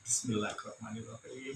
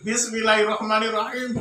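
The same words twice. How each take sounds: First: It is said calmly and humbly. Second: It is shouted angrily.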